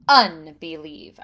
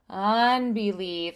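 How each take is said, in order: First: The opening vowel starts with a sharp glottal attack. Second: The opening vowel starts softly without a glottal attack. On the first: The speaker calls it right. "I'm going to sort of like kick it with my breath" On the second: The speaker calls it wrong. "those can feel a little more gentle uh, on the entrance"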